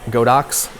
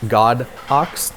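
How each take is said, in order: First: It is said as one blended word. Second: It is said as two separate words.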